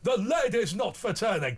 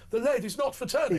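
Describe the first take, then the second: First: It is said in an exaggerated impersonation voice. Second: It is said in a plainer, simpler delivery. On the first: This is how impressionists usually render the line. The speaker calls it wrong. "People think she says" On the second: This is how the line was originally delivered. The speaker calls it right. "but she actually said"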